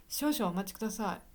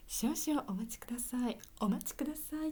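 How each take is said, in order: First: Said in the usual way. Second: 少々お待ちください said higher and lightly, as a polite phone voice; mother's polite phone voice. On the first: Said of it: "じゃなくて、やっぱり綺麗な声で話す". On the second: Retold or imitated. Mother answering the phone in a polite, higher voice. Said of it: "綺麗な声で話すんですね、うちの母ね".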